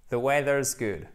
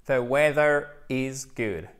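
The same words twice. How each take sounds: First: "weather's" run together into one word, "The weather's good" said naturally; contracted form. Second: "The weather is good" with "is" fully sounded, slow; full form. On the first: Teacher contrasting the contraction for learners, easy and natural. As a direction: fold the is into "weather's", casual spoken English. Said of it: "Forme contractée". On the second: Teacher showing French learners the full form, slowly. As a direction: spell out "weather is" as two clear words, unhurried. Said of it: "The weather is good, ok?". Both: Shown as a demonstration.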